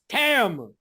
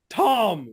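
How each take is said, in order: First: The vowel is said as an 'a' sound. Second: The vowel is said as an 'o' sound. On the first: The speaker calls it right. "It's Tam" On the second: The speaker calls it wrong. "Tom with an O"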